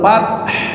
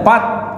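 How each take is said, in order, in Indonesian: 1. Bunyi h di akhir jelas dibaca. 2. Bunyi h di akhir dihilangkan. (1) "ada hak besar, hanya ha harusnya dibaca" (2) "Biasanya tidak dibaca, fath gitu aja ya"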